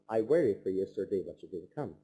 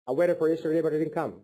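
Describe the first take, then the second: First: The sentence is said at a slow pace. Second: The sentence is said at a fast pace. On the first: The speaker calls it right. "slow down and calm down and slow your tempo" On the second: The speaker calls it wrong. "look at the first tempo"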